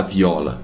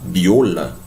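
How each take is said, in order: First: "viola" with an open O, Portuguese style. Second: "viola" drawn out slowly with a closed O; closed Spanish O. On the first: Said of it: "não vou falar viola". ("viola" com O aberto, à portuguesa) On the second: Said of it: "tem sempre som de O". ("viola" com O fechado, à espanhola) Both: Shown as a demonstration.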